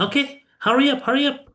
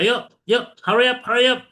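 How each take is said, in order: First: High, rising hurry up; urging students on; emphatic intonation. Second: Relaxed. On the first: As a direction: push hurry up with a lift. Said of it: "Emphasize tuh dari intonasinya". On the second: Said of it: "Apakah santai?". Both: Shown as a demonstration.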